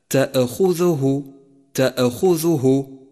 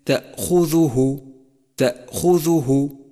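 First: تأخذه with a small extra vowel popping after the hamza; slow wrong-example تأخذه, ta-'e-khudhuhu; bounced hamza mistake. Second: تأخذه said slowly with a clean, still glottal stop after ta; careful تأخذه with a crisp silent catch; precise hamza. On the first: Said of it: "وإياك والقفز عليها فتصبح كالقلقلة". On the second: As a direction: close firmly on أ in تأخذه, no bounce. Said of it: "حقق نطق الهمزة بشكل صحيح". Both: Shown as a demonstration.

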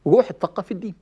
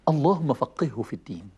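First: Said in the usual way. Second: اللهم فقهه في الدين said lower and softer, as a tender blessing; gentle prayer. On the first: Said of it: "بس أحلى". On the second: Shown as a demonstration. Preacher showing the nicer way to guide a child, gentle. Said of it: "بس أحلى. معمولة حلو".

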